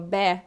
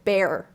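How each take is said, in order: First: The word ends without any R sound. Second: The word ends with a clear R sound. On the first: "they don't have to go to that er sound" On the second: "at the end you have to get to that R for the American accent"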